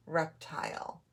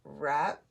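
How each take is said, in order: First: Said in the usual way. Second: "Reptile" as rep, long pause, tile; split into syllables. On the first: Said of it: "putting it back together". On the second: Shown as a demonstration. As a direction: leave a gap inside "Reptile" after rep. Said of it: "to separate the two syllables".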